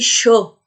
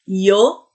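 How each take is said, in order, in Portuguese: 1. A palavra começa com um som de 'sh'. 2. A palavra começa com um som de 'y'.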